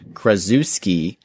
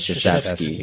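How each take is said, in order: First: The name begins with a 'kra' sound. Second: The name begins with a 'shuh' sound. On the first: The speaker calls it wrong. "L-Dog pronounced Duke basketball's head coach, Coach K's name as Krasuski" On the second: The speaker calls it right. "but it's actually Krzyzewski"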